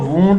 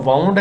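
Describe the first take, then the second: First: The vowel sounds like 'oo' in 'moon'. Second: The vowel sounds like 'ow' in 'down'. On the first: It is a noun meaning an injury. "वूंड है जो noun है, इसको हम जख्म कहते हैं" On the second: It is a verb meaning twisted or turned. "आपका वाउंड है, ये वर्ब है"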